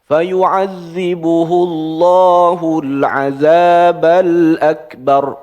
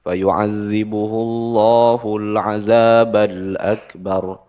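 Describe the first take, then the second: First: It is recited in a high, loud voice. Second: It is recited in a low, soft voice. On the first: The reader shows no fear of the punishment described. The speaker calls it wrong. "nggak boleh dengan nada tinggi" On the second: The reader sounds afraid of the punishment described. The speaker calls it right. "Pelanin suaranya. ... turun"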